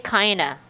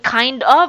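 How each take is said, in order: First: The words blend into one reduced word. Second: Both words are said fully and separately. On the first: The speaker calls it right. "try to sound like a native speaker" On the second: The speaker calls it wrong. "it's not really good"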